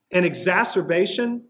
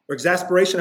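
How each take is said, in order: First: Exacerbation said by mistake for exasperation; wrong word slip. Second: Exasperation said as the intended word, ig-ZAS-per-AY-shun; corrected word. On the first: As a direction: slip out exacerbation before correcting it. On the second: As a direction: land on exasperation as the fix. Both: Real, not acted. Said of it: "I should say, excuse me".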